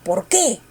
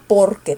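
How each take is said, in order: First: The stress falls on the second syllable. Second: The stress falls on the first syllable. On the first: "Primero la fuerza en el qué" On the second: "Ahora la fuerza quiero que esté en el por"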